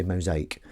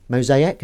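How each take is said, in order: First: "mosaic" as mo-ZAKE; two-syllable "mosaic". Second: "Mosaic" as mo-ZAY-ik, questioning; three-syllable "Mosaic". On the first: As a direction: run the end of "mosaic" into one syllable. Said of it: "or do you say mosaic". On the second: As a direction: say "Mosaic" with a separate final syllable. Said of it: "Is that how you say it". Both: Shown as a demonstration.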